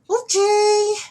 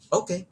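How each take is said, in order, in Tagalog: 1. Mataas ang pitch ng pagsasabi ng salita. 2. Mababa ang pitch ng pagsasabi ng salita. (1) "High pitch" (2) "in a low pitch"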